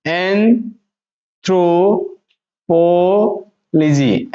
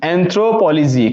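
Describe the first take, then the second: First: "एंथ्रोपोलॉजी" as an... thro... po... logy; very slow, long gaps between parts; syllable by syllable. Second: Said in the usual way. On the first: Shown as a demonstration. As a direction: stretch every piece of "एंथ्रोपोलॉजी". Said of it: "फिर थोड़ा सा हम देंगे". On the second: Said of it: "अब इसको हम पढ़ेंगे तो कैसे पढ़ेंगे".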